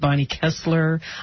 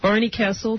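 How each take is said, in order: First: The surname ends with an added 'r' sound. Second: The surname ends without any 'r' sound. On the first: The speaker calls it wrong. "I made the mistake. I said Barney Kessler" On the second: The speaker calls it right. "I said it right this time"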